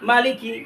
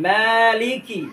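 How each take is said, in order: First: মালিকি clipped quick, the মা not lengthened; wrong reading. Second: মালিকি with মা held one alif long; correct length. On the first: Teacher shows the common mistake, a short মালিকি. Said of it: "এখানে আমরা যে ভুলটা করে থাকি". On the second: Teacher shows the correct মালিকি with a lengthened মা. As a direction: stretch the মা in মালিকি by one beat. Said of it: "এক আলিফ টান হবে এখানে". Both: Shown as a demonstration.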